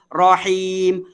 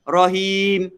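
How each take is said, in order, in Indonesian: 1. Vokal pertama adalah bunyi 'a' yang terbuka. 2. Vokal pertama adalah bunyi 'o' yang bulat. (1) "Rahim, rahim, bukan rohim" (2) "bukan rohim"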